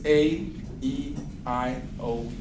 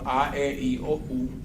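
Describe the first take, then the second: First: The vowel letters are named with English sounds. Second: The vowel letters are named with Spanish sounds. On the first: "los mismos vocales en inglés" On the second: "los vocales que ustedes conocen en español"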